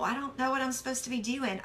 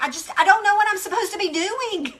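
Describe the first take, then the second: First: Quiet, fast, hopeless mumble. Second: Raised, exasperated quote. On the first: Shown as a demonstration. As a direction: mutter it like you've given up. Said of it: "I wrote, "I feel hopeless". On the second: Retold or imitated. Voicing the stressed listener, exasperated and raised. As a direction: throw up your hands in frustration.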